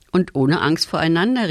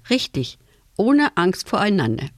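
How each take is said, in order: First: Mildly raised, eager call. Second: A touch of a smile in the voice; smiling agreement. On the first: Boy adds a condition to father's plan, calling out. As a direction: call it out as an addition. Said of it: "rief Tom". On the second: Father agrees with his son, smiling. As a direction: confirm it gently, with slight approval. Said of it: "Sein Vater lächelte". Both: A narrator's reading.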